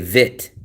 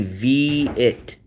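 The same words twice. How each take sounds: First: The word has one short vowel, like vit. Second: The word has two vowel sounds, vee then it. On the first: "They say Vit, leave out the E" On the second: "They don't say V-it"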